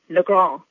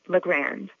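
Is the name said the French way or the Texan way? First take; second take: French; Texan. First: It is said the French, New Orleans way. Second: It is said the Texan, anglicized way.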